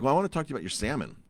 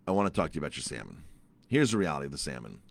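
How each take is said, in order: First: Higher-pitched, rapid retold request; quick, high opening ask; eager request. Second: Low, quick retold insistence; low, no-nonsense restatement; firm insistence. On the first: First request to the chef. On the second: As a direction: drop the pitch and press the point. Insists on his request again.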